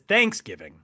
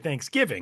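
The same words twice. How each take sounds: First: The stress is on the first part, thanks. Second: The stress is on the second part, giving. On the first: The speaker calls it wrong. "emphasizing the thanks and not the giving" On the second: The speaker calls it right. "it's the giving that's the big important part"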